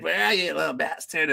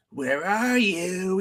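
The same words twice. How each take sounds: First: Quicker high-pitched mock taunt; retold taunt, raised pitch, not shouted. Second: Slow, high, drawn-out searching call; high singsong taunt, retold; mock taunting call. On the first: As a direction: lightly imitate a hunter taunting his prey. Retelling attacker's second taunt. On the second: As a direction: imitate a hunter calling out, stretching each word. Retelling attacker's taunt over chat.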